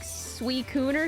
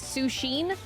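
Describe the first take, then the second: First: The name is said like 'Suicune'. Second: The name is said like 'Sushin'. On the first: This is believed to be the real pronunciation. The speaker calls it right. "but I think it's like Suicune" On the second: This is how it was said in childhood. The speaker calls it wrong. "I grew up pronouncing it as Sushin"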